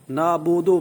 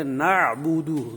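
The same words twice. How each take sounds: First: نعبدو with an o sound, nabodo; wrong majhul vowel. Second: Slow نعبدو with a clean u and ain, falling; correct pure u. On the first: Teacher showing students the wrong majhul reading. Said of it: "پڑھنا غلط ہے". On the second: Teacher giving students the correct reading, slow and clear. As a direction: stretch نعبدو slowly with a pure u. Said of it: "اس طرح پڑھیں گے". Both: Shown as a demonstration.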